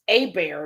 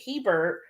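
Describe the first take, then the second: First: The name starts with a vowel, no h. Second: The name starts with an h sound. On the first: This is how the local people say the name. "it's pronounced A bear" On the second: This is how the family says its own name. "we pronounce it Hebert"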